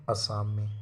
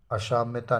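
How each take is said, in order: First: असाम्य ending on -mya, no -ta; correct form. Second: असाम्यता with an added -ta; wrong form. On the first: Teacher gives the correct noun, short-ended असाम्य. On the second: Teacher rejects the wrong noun, असाम्यता ending -ta. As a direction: tack ta onto असाम्यता. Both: Shown as a demonstration. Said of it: "असाम्यता नहीं".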